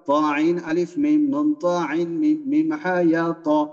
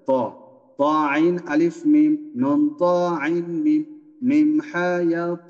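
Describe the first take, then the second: First: The letters are recited quickly. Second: The letters are recited slowly. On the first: "পরের বার" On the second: "এ প্রথমবার একটু স্লো হবে"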